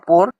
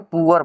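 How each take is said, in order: First: It is said as one syllable, like 'por'. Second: It is said as two syllables, like 'poo-ur'. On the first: The speaker calls it wrong. "तो गलती है" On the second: The speaker calls it right. "इसको हम लोग क्या बोलेंगे, पुअर बोलेंगे"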